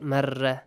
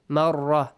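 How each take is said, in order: First: مرة with a thin, light ra; wrongly light ra. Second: مرة with a dark, heavy ra. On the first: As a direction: say مرة with no heaviness, as the mistake. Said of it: "not مرة". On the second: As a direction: say مرة with a full rolled heavy ra. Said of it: "pronounce them with a heavy sound". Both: Shown as a demonstration.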